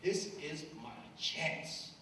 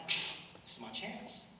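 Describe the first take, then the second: First: Slow, voiced and deliberate; slow inner resolve. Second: Slow, whispered resolve; inner thought whispered. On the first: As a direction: say it slowly, steeling yourself. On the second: Retold or imitated. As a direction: breathe it out slowly as a secret thought. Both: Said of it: "And I'm like".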